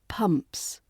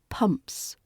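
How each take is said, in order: First: The vowel is a clear short uh sound. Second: The same.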